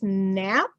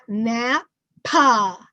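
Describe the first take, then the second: First: The word ends cleanly on the final consonant. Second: An extra weak vowel follows the final consonant. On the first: The speaker calls it right. "remember that it's nap" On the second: The speaker calls it wrong. "it's not nap-pa"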